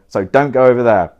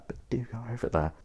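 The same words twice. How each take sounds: First: Said in the usual way. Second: Much quieter, quick undertone; hushed, hurried contradiction; sly aside. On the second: Real, not acted. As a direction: slip it in quickly under your breath. Sly aside reversing the instruction.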